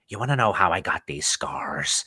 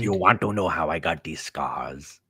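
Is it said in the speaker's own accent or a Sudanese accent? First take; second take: own accent; Sudanese accent. First: It is said in the speaker's own accent. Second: It is said in a put-on Sudanese accent.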